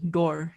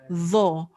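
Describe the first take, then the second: First: The consonant sounds like a plain d. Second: The consonant sounds like a th sound. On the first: "should not be pronounced is door" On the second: "how should not be pronounced is tho"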